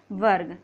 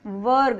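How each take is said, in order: First: Said in the usual way. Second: वर्ग with the र very short and light; वर्ग said with a tiny र; र barely sounded. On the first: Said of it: "वो ग से पहले करेंगे". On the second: Shown as a demonstration. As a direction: clip the र in वर्ग. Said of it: "बहुत छोटा सा बोल रहा है".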